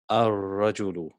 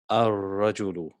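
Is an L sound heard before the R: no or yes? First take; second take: no; no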